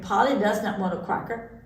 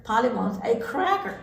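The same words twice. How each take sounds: First: "cracker" said as QUACKER, w for r; mispronounced cracker. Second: "cracker" with a clear KR and R sound; correct cracker. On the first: Duck explaining Polly's mistake, "cracker" said as quacker. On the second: Duck working out Polly's meaning, "cracker" said clearly with cr. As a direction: stress "cracker" with its proper cr. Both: A narrator's reading. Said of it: "She could not say cracker".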